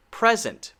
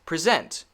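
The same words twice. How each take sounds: First: PRES-ent, high first syllable falling away; stress on first syllable. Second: Pre-SENT, reduced first syllable; stress on second syllable. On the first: Teacher contrasts noun with verb, first-syllable stress on PRES-ent. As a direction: hit the PRES in "Present". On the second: Teacher contrasts verb with noun, second-syllable stress on pre-SENT. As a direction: put the weight on SENT in "Present". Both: Shown as a demonstration. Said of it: "but the stress is different".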